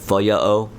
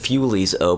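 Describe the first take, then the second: First: The first word has a Y sound, no L. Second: The first word has a clear L sound. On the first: The speaker calls it right. "so I guess that's how you pronounce it" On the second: The speaker calls it wrong. "I always called it Fulies O, but that's not how you pronounce it"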